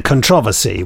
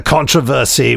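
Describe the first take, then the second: First: Controversy with stress on the second syllable; controversy stressed on TRO. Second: Controversy with stress on the first syllable. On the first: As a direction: say controversy as con-TRO-ver-sy. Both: Shown as a demonstration. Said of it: "whichever way you want to controversially pronounce that word".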